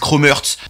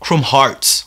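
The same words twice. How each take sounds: First: Hearts is said like the word hurts. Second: Hearts is said the English way, like harts. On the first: The speaker calls it wrong. "il y en a qui disent Chrome Hearts. Hearts, c'est genre blessé" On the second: The speaker calls it right. "ça se prononce Chrome Hearts en anglais"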